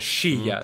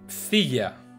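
First: It is said with an Argentine 'sh' pronunciation. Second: It is said with a plain Spanish pronunciation.

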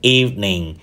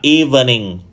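First: The word is said with two syllables. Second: The word is said with three syllables. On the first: The speaker calls it right. "nó chỉ có hai âm tiết thôi" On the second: The speaker calls it wrong. "thường được phát âm là"

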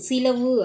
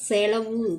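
First: The first vowel is an 'i' sound. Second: The first vowel is an 'e' sound. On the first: This is the colloquial spoken form. "பேச்சு வழக்கில் சிலவு சிலவு அப்படின்னு சொல்லுவோம்" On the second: This is the formal written form. "எழுத்து வழக்கில் செலவு செலவுன்னு சொல்லணும்"

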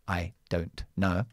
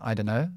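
First: Each word is said clearly and in full. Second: The words blur together into a reduced form.

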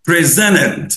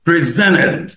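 Both takes have the same delivery.

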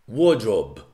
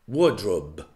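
Both takes have the same delivery.

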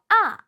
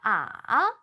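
First: The pitch falls from high to low. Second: The pitch dips down and then rises. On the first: "위에서 아래로" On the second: "내려갔다 올라오며"

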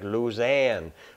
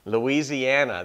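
First: It is said with an alternative, local-style pronunciation. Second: It is said with the speaker's northern pronunciation. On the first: "Maybe it's like Louisiana" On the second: "that's how we say it up here"

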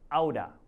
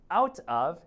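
First: The two words are blended into one reduced word. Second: The two words are said separately and fully.

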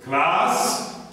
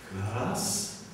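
First: It is said at a normal, higher pitch. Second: It is said at a lower pitch.

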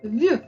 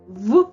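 First: The v sound is soft and palatalized. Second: The v sound is hard, not palatalized. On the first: "м'яким приголосним" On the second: "твердим приголосним"

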